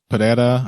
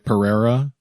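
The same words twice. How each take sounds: First: The R is a quick tap of the tongue. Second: The R is a smooth American English R. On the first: The speaker calls it right. "the tap R is very easy for my American English tongue" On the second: The speaker calls it wrong. "I don't say Pereira"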